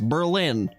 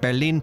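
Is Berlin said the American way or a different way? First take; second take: American; different way. First: It is said in the usual American way. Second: It is said in a non-American way. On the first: It is the speaker's own native habit. The speaker calls it wrong. "I feel like I'm saying it wrong if I say it as Berlin" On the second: It copies how a friend says the name. The speaker calls it right. "I say it like Berlin, just like Buff does"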